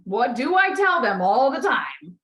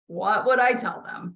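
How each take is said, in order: First: Slow, louder question punching "do"; stress on DO. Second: Slow question, weight on "would"; stress on WOULD. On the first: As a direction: hit "do", then stretch out "all the time". Emphatic rephrasing of the question. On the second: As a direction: ask it slowly, leaning on "would". Self-question, contrasted with next take. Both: Shown as a demonstration.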